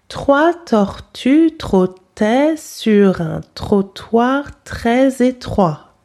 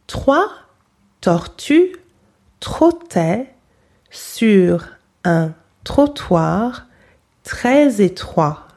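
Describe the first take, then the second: First: It is said fast and smoothly. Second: It is said slowly.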